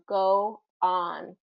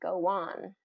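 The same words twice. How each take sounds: First: The two words are said without a connecting glide. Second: A w-like glide links the two words together. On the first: "it's difficult to get your mouth from go on" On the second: "typically what native English speakers say is go on"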